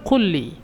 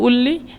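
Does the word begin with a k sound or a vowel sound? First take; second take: k sound; vowel sound. First: The word begins with a k sound. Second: The word begins with a vowel sound. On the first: "এখানে কুল্লি" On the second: "মিশররা উল্লি বলে"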